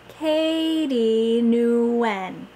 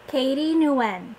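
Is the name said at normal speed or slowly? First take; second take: slow; normal. First: The name is said slowly and clearly. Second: The name is said at a normal pace. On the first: "then again slowly and clearly" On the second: "First at normal speed"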